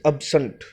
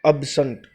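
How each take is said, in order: Both takes have the same delivery.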